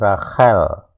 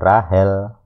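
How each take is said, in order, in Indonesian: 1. Konsonan tengahnya adalah kh yang kasar dari tenggorokan. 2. Konsonan tengahnya adalah h yang lembut dan biasa. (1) "ini Rachel" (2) "Bukan Rahel"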